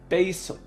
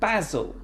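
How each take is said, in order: First: It is said in an American accent. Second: It is said in a British accent.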